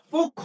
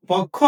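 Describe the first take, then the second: First: পক্ষ said pokkho, with a closed o; পক্ষ as pokkho with a rounded o; পক্ষ, a closed first vowel, pokkho; correct reading. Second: পক্ষ said with an open o, like pɔkkho; পক্ষ read as pɔkkho to test the class; পক্ষ with the open first vowel ɔ; wrong reading. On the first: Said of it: "অবশ্যই পক্ষ". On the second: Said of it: "নাকি পক্ষ? অবশ্যই পক্ষ". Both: Shown as a demonstration.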